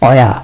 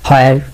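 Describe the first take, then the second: First: The word begins without any 'h' sound. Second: The word begins with an audible 'h' sound. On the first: The speaker calls it right. "শুনবেন অয়া" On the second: The speaker calls it wrong. "হয়ার শুনবেন না"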